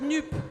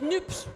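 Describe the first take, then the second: First: It stops at the 'p', with no ending. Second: It ends in 'ps', with no vowel before s. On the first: The social part of the name is dropped. "y a ceux qui disent NUP" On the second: The ecological part of the name is dropped. "ceux qui disent NUPS et qui sautent par-dessus la question écologique"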